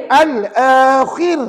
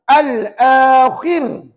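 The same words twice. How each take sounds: First: The word ends on a bare r sound. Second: The same.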